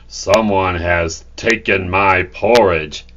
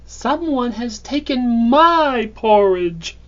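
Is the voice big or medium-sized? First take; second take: big; medium-sized. First: It is said in a big, booming voice. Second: It is said in a medium-sized voice. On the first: "he bellowed in his big voice" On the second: "in her medium-sized voice"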